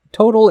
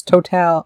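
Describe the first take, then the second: First: Total said as English TOH-tul; English pronunciation. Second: Total said as Spanish to-TAL, open a; Spanish pronunciation. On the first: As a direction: total with stress on the first syllable. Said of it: "or total in English". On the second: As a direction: total with Spanish stress on the last syllable. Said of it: "it's total in Spanish". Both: Shown as a demonstration.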